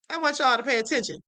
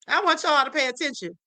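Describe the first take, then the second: First: Quick repeat. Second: Said in the usual way. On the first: Shown as a demonstration. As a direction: rattle it off again quickly.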